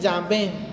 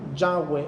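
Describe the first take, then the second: First: The middle consonant is a v sound. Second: The middle consonant is a w sound. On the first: "en su fonética ellos dicen Yahvé" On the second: "así suena Yahweh en su lenguaje de ellos"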